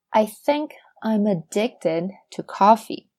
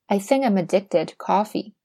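First: Slow, word-by-word teaching delivery; slow model sentence. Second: Said in the usual way. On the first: Shown as a demonstration. Teacher models a coffee example for learners, slow and deliberate. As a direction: spell it out slowly, word by word.

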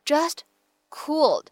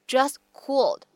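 First: Said in the usual way. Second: "just cooled" joined, final T of "just" dropped; lost plosion. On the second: Shown as a demonstration. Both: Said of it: "会有一个失去爆破的处理".

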